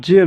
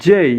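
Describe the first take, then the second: First: Said in the usual way. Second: "জেই" gliding from e to i; corrected letter J. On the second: Shown as a demonstration. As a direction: say "জেই" as a drawn-out jay. ("জেই" শেষে ই-ধ্বনি টেনে) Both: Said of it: "জে নয়".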